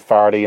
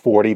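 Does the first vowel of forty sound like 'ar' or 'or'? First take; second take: ar; or. First: The first vowel sounds like 'ar', as in 'farty'. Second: The first vowel sounds like 'or', as in 'fort'. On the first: "or comes out as are" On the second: "instead of"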